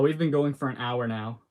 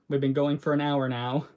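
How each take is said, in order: First: It is said in his natural voice. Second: It is said in a put-on character voice.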